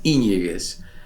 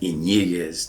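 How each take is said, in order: First: The stress is on the first syllable. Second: The stress is on a later syllable. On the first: The speaker calls it right. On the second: The speaker calls it wrong.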